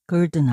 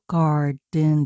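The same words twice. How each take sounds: First: The first vowel is a weak 'er' sound. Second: The first vowel is a full 'ar' sound. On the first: The speaker calls it wrong. "garden 아니잖아" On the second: The speaker calls it right. "ar이 중간에 올 때 r로 난다고 했죠. 그래서 garden 할 때도 garden 됐지"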